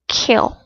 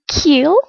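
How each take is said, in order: First: The vowel is short with relaxed lips. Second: The vowel is long with spread, smiling lips. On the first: The speaker calls it right. "Look at my mouth position" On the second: The speaker calls it wrong. "not kill like smiling"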